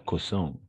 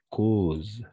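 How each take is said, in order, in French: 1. La terminaison finale se prononce comme une voyelle nasale. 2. La terminaison finale est muette. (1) "pas causant" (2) "E N T, on ne prononce jamais"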